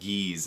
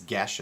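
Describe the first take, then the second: First: The word sounds like 'geese'. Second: The word does not sound like 'geese'. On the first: The speaker calls it wrong. "it's not Geese, as I hear a lot of people say it" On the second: The speaker calls it right. "If you were wondering how it's pronounced, it's Geass"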